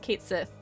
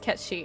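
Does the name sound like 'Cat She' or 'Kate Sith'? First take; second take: Kate Sith; Cat She. First: The name is said like 'Kate Sith'. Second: The name is said like 'Cat She'. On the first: "I think it's Kate Sith" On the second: "it's pronounced as Cat She"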